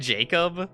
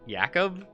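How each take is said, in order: First: The name begins with a J sound. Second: The name begins with a Y sound. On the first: The speaker calls it wrong. "It looks like it looks like Jacob" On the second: The speaker calls it right. "the J was pronounced as a Y"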